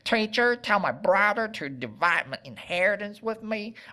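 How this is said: It is said with a Western twang.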